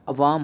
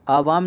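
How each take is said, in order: First: अवाम said with short first a; teacher giving the right form अवाम, short a; correct form अवाम. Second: आवाम said with long first aa; teacher voicing the wrong form आवाम, long aa. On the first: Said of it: "अवाम होता है". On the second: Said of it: "आवाम नहीं होता है". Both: Shown as a demonstration.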